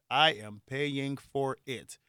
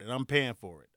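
First: "I am paying for it" word by word, slowly; slow emphatic restatement. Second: Said in the usual way. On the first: Real, not acted. Rueful after celebrating, "I am paying for it" slow and emphatic. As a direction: draw out each word of "I am paying for it".

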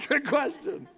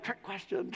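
First: Mock-suspicious, breaking into a laugh; laughing repeat. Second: Imitating a wary listener under the breath; wary murmur. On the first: Congregation imitated, laughing at the trick question. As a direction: laugh through it, a bit higher. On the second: Congregation imitated as a quiet suspicious aside. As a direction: drop to a suspicious mutter. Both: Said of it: "Some of you are like".

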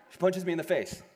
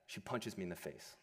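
First: "She punches me in the face" said higher and louder, punching "punches"; loud, emphatic restatement; emphatic repeat. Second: Said in the usual way. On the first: Shown as a demonstration. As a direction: hammer home the punch line.

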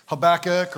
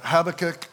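First: Habakkuk said huh-BACK-uk; "Habakkuk" with BACK punched; second-syllable stress. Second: Habakkuk said HAB-uh-kuk; "Habakkuk" with HAB punched; first-syllable stress. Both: Shown as a demonstration. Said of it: "however you pronounce it".

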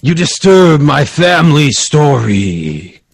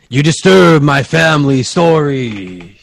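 First: Slow, drawn-out ghostly boom; an echoing voice from the painting, slow and booming; booming crazy voice. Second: Slow, echoing ghostly boom; a haunted painting's booming warning; booming crazy voice. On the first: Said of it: "crazy voice". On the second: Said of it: "You heard a bo-, booming". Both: Acted.

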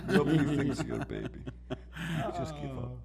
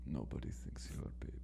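First: A hint of Khabib accent broken by laughter; laughing Khabib accent. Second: Whispered, much lower and softer mock Khabib accent; Khabib ASMR whisper. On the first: Friend repeating the joke line, laughing in a light accent. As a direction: giggle through a light mock Khabib accent. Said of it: "whispering in his ear". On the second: Friend reprising the joke line in pretend Khabib ASMR, whispered. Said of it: "Khabib A S M R video".

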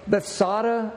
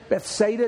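First: "Bethsaida" said beth-SAH-tuh; alternate pronunciation. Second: "Bethsaida" said beth-SAY-duh; alternate pronunciation. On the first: Preacher naming the pool where he was healed, pronouncing "Bethsaida" as beth-SAH-tuh. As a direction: say "Bethsaida" with an AH in the middle. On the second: Preacher listing ways to name the pool, pronouncing "Bethsaida" as beth-SAY-duh. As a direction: say "Bethsaida" with a long AY in the middle. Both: Shown as a demonstration. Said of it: "different ways to pronounce that".

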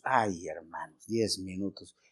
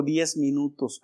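First: Slow, much softer and lower sigh of "diez minutos"; a long, low, soft groan on "Ay, hermanos, diez minutos"; anguished echo. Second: Said in the usual way. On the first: Acted. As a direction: let "diez minutos" sink down, drawn out and weary. Echoing the nurse in anguish.

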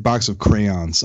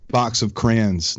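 First: "crayons" in two syllables, "cray-ons"; standard pronunciation. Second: "crayons" said as one syllable, "crans"; own regional pronunciation. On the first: Host correcting himself, "crayons" said fully as "cray-ons". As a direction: sound out both vowels in "crayons". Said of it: "the way people pronounce crayon". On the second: Host mentioning endless creative options, "crayons" squashed to "crans". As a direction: run "crayons" together so it rhymes with "fans". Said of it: "I say crayon". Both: Real, not acted.

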